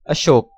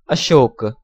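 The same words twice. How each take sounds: First: It is said the Hindi way. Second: It is said the Sanskrit way. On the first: "Hindi pronunciation" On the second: "Sanskrit pronunciation"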